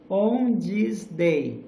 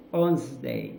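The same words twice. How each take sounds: First: "On this day" slow, loud-ish and word by word; unlinked words. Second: "On this day" squashed into "onz-day", lower; linked words. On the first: Teacher showing words before linking, "On this day" slow and separate. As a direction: stretch "On", "this", "day" apart. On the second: Teacher showing link words, "On this day" as "onz-day". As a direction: run "on this" together as "onz". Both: Shown as a demonstration. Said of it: "esses link word".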